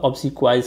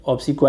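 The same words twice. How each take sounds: First: "obsequies" said "kwai" plus a closing s; plural with final s. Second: "obsequi" ending on an open "kwai"; singular without final s. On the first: Teacher giving the corrected word, final s sounded. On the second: Teacher quoting the error from part one, no final s. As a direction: say "obsequi" with no s at the end. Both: Shown as a demonstration. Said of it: "नहीं होगा".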